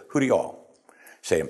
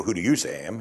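First: "you all" clearly marked, "all" weighted; stress on all. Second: Said in the usual way. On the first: Shown as a demonstration. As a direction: lean on "all" so the "you" is plural. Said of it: "He said". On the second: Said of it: "He didn't say to Peter".

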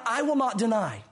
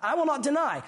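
First: Said in the usual way. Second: I will not deny pushed higher, WILL stressed; emphatic vow. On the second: Retold or imitated. Preacher re-quoting Peter's vow, raised and emphatic. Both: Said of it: "That's what he said".

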